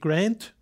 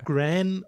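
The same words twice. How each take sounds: First: The word ends with a d sound. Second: The word ends without a d sound. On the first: The speaker calls it wrong. "nicht wie Grand" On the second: The speaker calls it right. "sondern ohne D"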